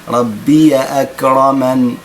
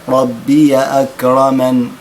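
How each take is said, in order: No difference in how they are said.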